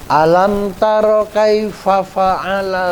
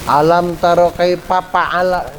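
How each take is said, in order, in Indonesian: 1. Fa'ala diawali dengan bunyi f. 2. Fa'ala diawali dengan bunyi p. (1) "Bukan P tapi F" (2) "jangan pa"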